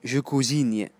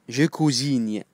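The two takes are said the same way.

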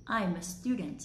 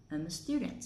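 First: "I'm" with a clear "I" vowel; full "I'm". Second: "I'm" weakened to "um"; reduced "I'm". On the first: Teacher showing the first way to read it, full "I'm". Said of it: "mình có hai cách đọc trong câu này". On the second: Teacher showing the second way to read it, reduced "I'm". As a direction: swallow the "I" in "I'm" into a schwa. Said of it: "chuyển I với âm ờ". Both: Shown as a demonstration.

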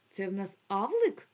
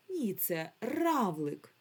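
First: Авлик said without its р, with a questioning rise; wrong word. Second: Равлик said slowly with a clear р; corrected word. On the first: Teacher offers the wrong word авлик to the pupils. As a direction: ask авлик like a missing-letter puzzle. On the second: Teacher correcting the pupils to равлик. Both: Shown as a demonstration.

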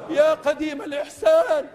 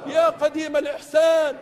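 No difference in how they are said.

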